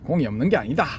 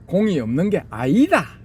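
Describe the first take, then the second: First: It is said in a plain standard accent. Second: It is said in a Gyeongsang regional accent. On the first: The speaker calls it wrong. "아니고" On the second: The speaker calls it right. "경상도 말투"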